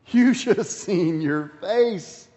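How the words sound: It is said while laughing. "maybe they're bent over in laughter"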